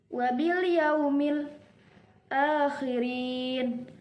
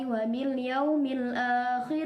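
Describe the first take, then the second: First: There is a brief breath-holding pause after yaumil. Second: It flows on without a pause after yaumil.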